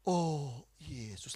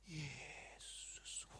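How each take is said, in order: First: "Yesus" drawn out in a low, voiced prayer; low, stretched-out devotional call; slow prayer. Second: "Yesus" stretched out in a whisper; hushed, long-drawn devotional whisper; even slower prayer. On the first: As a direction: imitate slow, lingering worship on "Yesus". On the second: Retold or imitated. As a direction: breathe "Yesus" out very slowly. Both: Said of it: "Lebih lambat lagi".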